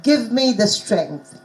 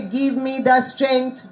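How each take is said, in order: First: "Give me the strength" measured, short vowels in "Give" and "strength". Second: "Give me the strength" slow, vowels lengthened, "Give" towards "geev"; wrong vowels. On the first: Teacher demonstrating correct vowels, slow "Give me the strength" with short vowels. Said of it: "teaching them the short vowels". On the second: Teacher showing what sounds wrong, "Give me the strength" with lengthened vowels. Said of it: "no, it doesn't sound". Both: Shown as a demonstration.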